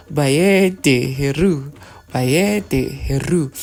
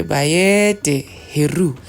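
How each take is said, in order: First: "Heru" stressed and drawn out, very slow; emphasis on Heru. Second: "Bayede" stretched slow and stressed; emphasis on Bayede. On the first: Teacher emphasizing Heru for listeners, slow and stressed. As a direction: slowly stress "Heru" as the key word. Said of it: "I'm emphasizing Heru". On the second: Teacher showing listeners how to add emphasis, stressing "Bayede" slowly. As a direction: lean hard into "Bayede", slowly. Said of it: "to put more emphasis". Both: Shown as a demonstration.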